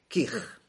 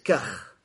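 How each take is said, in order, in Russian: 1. Слово произносится с гласным 'i'. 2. Слово произносится с гласным 'a'. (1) "а можно говорить с касрой" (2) "можно говорить с фатхой"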